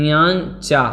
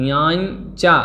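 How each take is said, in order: No difference in how they are said.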